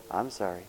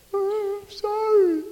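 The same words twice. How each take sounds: First: Said in the usual way. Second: Put-on much higher, slow pleading little-kid apology; slow, high tot's plea; tiny child voice. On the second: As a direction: drag it out like a toddler tugging a sleeve. Child tugging on parent's clothes.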